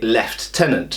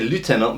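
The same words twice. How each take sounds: First: It is said the British way, lef-tenant. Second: It is said the American way, loo-tenant.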